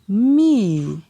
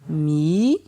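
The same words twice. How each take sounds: First: It is said on a falling tone. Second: It is said on a rising tone. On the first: "Ton descendant" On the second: "Ton montant"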